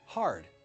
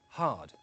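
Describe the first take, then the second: First: The R sound is pronounced, American style. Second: The R sound is silent, RP style.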